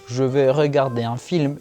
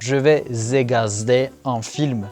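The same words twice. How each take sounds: First: The r in regarder is a throaty uvular r. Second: The r in regarder sounds like a z. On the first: This is how it is said today. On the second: This is how it may have been said centuries ago.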